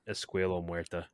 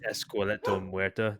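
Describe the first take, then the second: First: The first word has no 't' sound. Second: The first word has a 't' sound. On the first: The speaker calls it wrong. "not Escuelo Muerta" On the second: The speaker calls it right. "It's Esqueleto Muerta"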